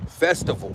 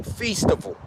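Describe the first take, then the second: First: Said in the usual way. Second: "festival" said as FEES-ti-val; "festival" pronounced like "feast-ival"; foreign-accented word. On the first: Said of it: "Think about somebody saying festival". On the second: Shown as a demonstration. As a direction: stretch the first syllable of "festival" to a long ee. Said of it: "saying festival in a foreign accent".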